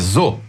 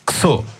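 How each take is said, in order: First: The syllable starts with a 'z' sound. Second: The syllable starts with an 'sh' sound. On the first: The speaker calls it right. "é zo" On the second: The speaker calls it wrong. "não é xo"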